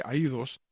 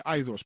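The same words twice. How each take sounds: First: Aidos con la «i» separada y acentuada, «a-í-dos»; pronunciación kazaja. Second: Aidos con el diptongo «ai» en una sílaba; pronunciación española. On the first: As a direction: di Aidos como en su idioma, «a-í-dos». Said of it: "en el idioma de ellos se dice". (Aidos pronunciado en hiato, a-í-dos) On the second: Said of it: "En español se dice". (pronunciación a la española de Aidos) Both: Shown as a demonstration.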